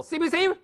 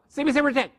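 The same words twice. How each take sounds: First: Each letter spelled out separately and slowly; C B C with a pause between the letters. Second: C B C retic run together like one syllable. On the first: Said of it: "That's slow". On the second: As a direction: rattle off C B C retic in one quick breath. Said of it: "Say them together like one syllable". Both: Shown as a demonstration.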